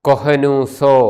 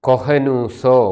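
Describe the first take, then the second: No difference in how they are said.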